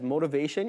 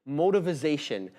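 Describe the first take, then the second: First: The word is said with its usual syllables. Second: The word has an added -iz- syllable. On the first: "when he says motivation" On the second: "he pronounces it motivization"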